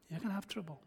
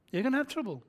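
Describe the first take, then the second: First: Quiet take. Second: Higher, stronger on have; firm repeat, lifting have; firmer take. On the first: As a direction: say it quietly first. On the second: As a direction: press on have. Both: Shown as a demonstration.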